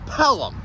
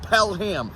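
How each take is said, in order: First: The second syllable is a weak 'um'. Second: The second syllable is a full 'ham'. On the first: The speaker calls it right. "P E L U M. ... like a plum" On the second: The speaker calls it wrong. "It's not Pelham. Nobody here in New Hampshire wants to pell a ham"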